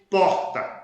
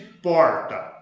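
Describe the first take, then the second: First: It is said with a Bahian regional accent. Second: It is said with a Goiás regional accent. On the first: "como se fala na Bahia" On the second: "vocês falam predominantemente porta"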